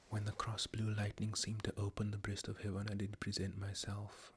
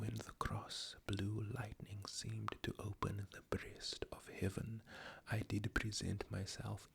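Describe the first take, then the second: First: The line is read at a quicker pace. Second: The line is read at a slower pace.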